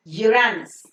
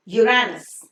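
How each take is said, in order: Both takes have the same delivery.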